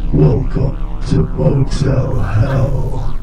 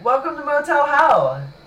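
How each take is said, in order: First: It is said with little enthusiasm. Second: It is said with overdone enthusiasm.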